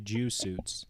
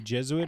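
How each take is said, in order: First: The word is split into 'Jew' and 'suits'. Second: The word starts with a short 'Jez' sound. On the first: The speaker calls it wrong. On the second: The speaker calls it right. "You're trying to say Jesuit"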